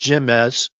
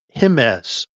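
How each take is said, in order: First: The first letter sounds like an English J. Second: The first letter is not an English J sound. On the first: The speaker calls it wrong. "it's not pronounced Jimez like I was saying it to him" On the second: The speaker calls it right. "Because the Latin letter J is sounded with the"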